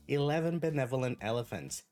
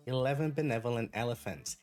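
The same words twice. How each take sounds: The two takes are said the same way.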